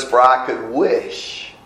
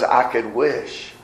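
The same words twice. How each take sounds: First: Slow read with "I" stressed and a rising end. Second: Slow and soft, "I" stressed, rising end. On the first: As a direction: dwell on "I could wish". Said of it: "notice what it says". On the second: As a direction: dwell quietly on "I could wish". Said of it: "But he says". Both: Shown as a demonstration.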